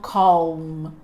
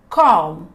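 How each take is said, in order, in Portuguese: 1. O som do L é pronunciado. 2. O som do L é silencioso. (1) "e não calm" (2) "O L não é pronunciado"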